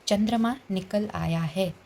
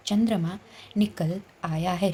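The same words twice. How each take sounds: First: Spelled out slowly for students; slow dictation. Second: Slow, evenly spaced example reading; slow dictation. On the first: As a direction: read the example sentence slowly and clearly. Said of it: "वाक्य देखिए". (धीमे, साफ़ उच्चारण में) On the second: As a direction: read it out slowly for the class. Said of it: "जिसको हम शब्द बोलेंगे". (धीमी गति से पढ़ना) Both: Shown as a demonstration.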